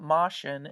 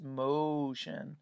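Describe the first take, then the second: First: The O is a short vowel sound. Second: The O is a long vowel sound. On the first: The speaker calls it wrong. "It's not motion" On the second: The speaker calls it right. "it's motion"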